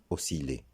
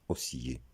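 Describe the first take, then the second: First: Osciller with a true L, o-si-lé; correct pronunciation. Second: Osciller with a Y glide, o-si-yé; wrong pronunciation. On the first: Teacher correcting learners, osciller as o-si-lé. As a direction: sound the L in osciller. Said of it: "mais osciller". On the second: Teacher showing what not to say, osciller as o-si-yé. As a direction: make the double L of osciller a Y sound. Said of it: "on ne le prononcera pas osciller". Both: Shown as a demonstration.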